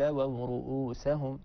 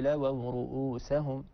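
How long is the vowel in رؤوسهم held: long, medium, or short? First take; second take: short; short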